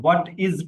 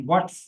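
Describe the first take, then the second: First: Said in the usual way. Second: What's said as one clipped syllable; contracted what's. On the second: Shown as a demonstration. Teacher models the contraction for students, one quick syllable. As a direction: squeeze what's into one beat. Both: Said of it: "what is को what's pronounce करना है".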